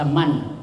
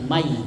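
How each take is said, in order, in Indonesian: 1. Kata itu berakhir dengan bunyi n yang jelas. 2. Bunyi n menyatu dengan bunyi y yang mengikuti. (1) "tidak dibaca man" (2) "tapi mai karena dimasukkan ke ya"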